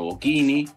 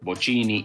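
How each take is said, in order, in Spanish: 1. La ch se dice como una k. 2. La ch se dice como la ch española. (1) "y no Bocchini" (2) "es Bocini"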